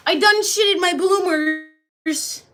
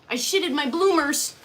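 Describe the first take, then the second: First: Loud, high, drawn-out mock confession; hammed-up, dragged-out outcry. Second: Mild put-on confession; the milder mock admission. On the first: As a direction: wail it slowly in hammed-up dismay. Repeats the silly confession, bigger. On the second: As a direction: confess it with mock dismay, held back. Reads out a silly confession.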